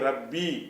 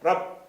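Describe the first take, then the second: First: The word ends with a short final vowel. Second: The word ends on a consonant, no final vowel. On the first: The reader continues into the next word. "சேர்த்து படிக்கிறீங்களா? ... ரப்பில உள்ள பியையும் சொல்லுங்க" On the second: The reader stops after this word. "இப்படி தான் முடிச்சிடணும்"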